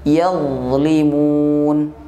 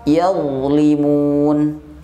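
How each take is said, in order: The two takes are said the same way.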